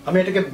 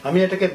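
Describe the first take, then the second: No difference in how they are said.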